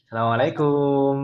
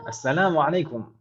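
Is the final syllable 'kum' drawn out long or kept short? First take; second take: long; short. First: The final syllable is drawn out long. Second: The final syllable is kept short. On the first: This is how Indonesians usually say the greeting. "kumnya panjang biasanya" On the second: This is how Arabs say the greeting.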